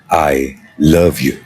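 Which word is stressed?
love. The stress falls on the word love. It expresses the feeling itself from the heart. "when you're conveying a heart's feeling"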